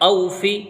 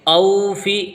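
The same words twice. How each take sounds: First: The first vowel is said short and quick. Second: The first vowel is drawn out long. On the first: The speaker calls it right. "बल्कि जल्दी पढ़ेंगे" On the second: The speaker calls it wrong. "ऐसे खींच के नहीं पढ़ेंगे"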